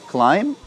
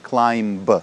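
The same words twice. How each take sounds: First: The final b sound is silent. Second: The final b sound is pronounced. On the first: The speaker calls it right. "Последнее «b» в этом слове тоже не произносится. Climb" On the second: The speaker calls it wrong. "not climb"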